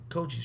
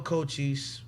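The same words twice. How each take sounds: First: It is said in an American accent. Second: It is said in a Jamaican accent.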